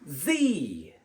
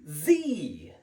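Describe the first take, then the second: First: The letter is pronounced zee. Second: The letter is pronounced zee.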